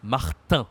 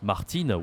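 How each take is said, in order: First: "Martin" with nasal final vowel, n silent; "Martin" the French way, ending through the nose; French pronunciation of Martin. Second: "Martine" with a sounded final n; "Martine", long ee and clear n; wrong pronunciation of Martin. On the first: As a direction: end "Martin" on a nasal an sound, no n. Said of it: "we say Martin". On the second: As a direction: say "Martine" ending in een. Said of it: "we say not Martine". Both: Shown as a demonstration.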